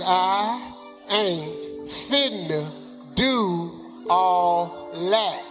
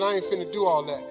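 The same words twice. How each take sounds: First: The sentence is said slowly and deliberately. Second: The sentence is said at a normal pace.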